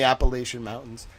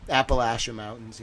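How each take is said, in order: First: "Appalachian" said with LAY as the third syllable; Appalachian with long A. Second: "Appalachian" said with LASH as in "lash"; Appalachian with short A. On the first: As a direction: say "Appalachian" as app-uh-LAY-shun. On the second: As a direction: say "Appalachian" as app-uh-LASH-un, lower and quieter. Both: Shown as a demonstration. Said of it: "So I'm from the South now".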